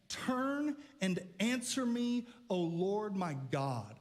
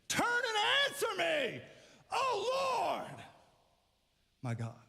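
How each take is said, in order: First: It is read in a plain, calm way. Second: It is read forcefully, as an exclamation.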